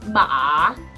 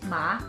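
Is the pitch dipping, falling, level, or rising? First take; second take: dipping; rising. First: The pitch dips low, then rises. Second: The pitch rises from low to high. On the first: "dip to a lower pitch before ending at a higher pitch, just like this" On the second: "start from a lower pitch before ending at a higher pitch"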